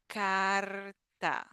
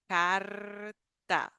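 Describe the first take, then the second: No difference in how they are said.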